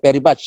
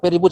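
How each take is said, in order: First: The vowel in 'much' sounds like 'uh'. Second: The vowel in 'much' sounds like 'oo'. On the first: This is how we usually say it. "kalau kita kan very much" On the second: This is how people from Manchester say it. "orang Manchester itu u-nya"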